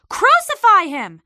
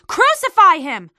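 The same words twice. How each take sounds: First: High, loud shout, repeated just as hard; shouting crowd. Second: High, loud furious shout; shouting crowd. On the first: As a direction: hammer the demand home again. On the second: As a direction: bellow the demand, first blow of the chant. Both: A narrator's reading. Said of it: "they kept shouting".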